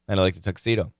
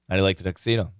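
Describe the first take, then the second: First: The words are reduced and run together. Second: The words are reduced and run together.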